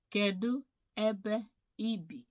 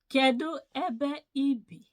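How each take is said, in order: First: Said in the usual way. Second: Called out high and loud for the class; teacher's loud model phrase; emphatic model question. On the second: Shown as a demonstration. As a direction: belt the question out so students copy it.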